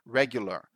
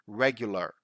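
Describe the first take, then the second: Both takes have the same delivery.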